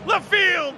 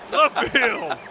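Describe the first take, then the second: First: The voice is pitched higher. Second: The voice is pitched deeper. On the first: "maybe a little deeper" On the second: "Too deep!"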